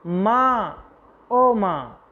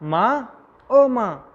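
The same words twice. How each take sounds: First: A light pained moan calling for mother; a mild pained cry, higher pitched; groaning in pain. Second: Crying out in pain. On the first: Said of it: "ज़ोर से कराकर कहता है". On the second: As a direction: wail it out as the pain hits. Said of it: "दर्द से कहता है". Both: Acted.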